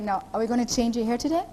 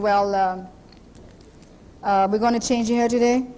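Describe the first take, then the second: First: It sounds eager and willing. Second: It sounds hesitant and reluctant.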